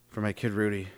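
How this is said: It sounds meek and low status.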